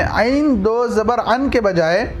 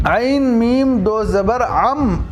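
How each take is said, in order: First: आइन दो ज़बर अन with plain n ending; आइन read ending in अन, not nasal m; the rejected अन ending; wrong reading. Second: आइन मीम दो ज़बर अम, the ending turned to a nasal m, slowly; slow model recitation of अम; correct reading. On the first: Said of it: "अन नहीं". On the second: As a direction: drag out अम with a humming m. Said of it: "अम पढ़ेंगे". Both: Shown as a demonstration.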